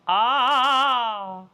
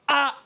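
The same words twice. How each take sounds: First: The sound is soft and gentle. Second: The sound is harsh and abrasive. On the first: The speaker calls it right. "always very healthy and gentle" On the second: The speaker calls it wrong. "Never abrasive. Ah, it's never that"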